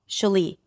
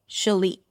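Both takes have the same delivery.

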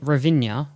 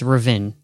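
First: The name is said with four syllables. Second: The name is said with two syllables. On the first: The speaker calls it wrong. "I was calling it Ravinia on the last podcast. I have to correct myself" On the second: The speaker calls it right. "It's Ravin"

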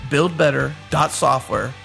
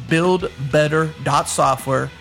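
The two takes are said the same way.

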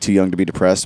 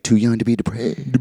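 First: The ending of depressed is fully pronounced. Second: The ending of depressed is dropped.

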